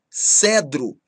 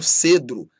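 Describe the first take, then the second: First: The first e vowel is open. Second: The first e vowel is closed. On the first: The speaker calls it right. "timbre aberto" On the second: The speaker calls it wrong. "e não"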